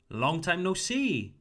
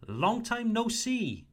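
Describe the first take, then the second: First: Said in the usual way. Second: "Long time no see" lifted high and bright with pitch; friendly greeting. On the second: Shown as a demonstration. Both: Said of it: "If you want to greet someone".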